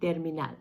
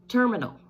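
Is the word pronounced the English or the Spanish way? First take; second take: Spanish; English. First: It is pronounced with Spanish sounds. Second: It is pronounced with English sounds.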